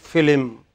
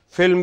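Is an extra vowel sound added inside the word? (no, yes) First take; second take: yes; no. First: An extra vowel sound is added inside the word. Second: The word is said without an added vowel.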